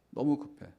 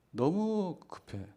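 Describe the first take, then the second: First: Said in the usual way. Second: Rushed. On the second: Shown as a demonstration.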